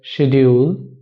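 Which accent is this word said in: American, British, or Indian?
British. It is said in a British accent. "In British English"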